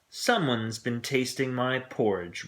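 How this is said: It is said in a great big voice.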